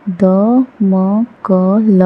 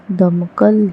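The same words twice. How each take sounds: First: दमकल split into slow syllables द-म-क-ल; spelled out slowly. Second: Said in the usual way. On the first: Shown as a demonstration. Teacher sounding out दमकल slowly for the class. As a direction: sound out दमकल piece by piece, drawn out. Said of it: "syllable-by-syllable then whole". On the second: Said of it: "whole word after sounding out".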